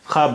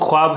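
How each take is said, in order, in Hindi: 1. kh के बाद w की आवाज़ नहीं आती। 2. kh के बाद एक w की आवाज़ आती है। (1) "बहुत सारे वर्ड्स में वो वाव साइलेंट होता है" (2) "वैसे तो ख्वाब है"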